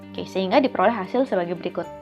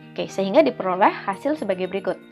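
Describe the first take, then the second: The two takes are said the same way.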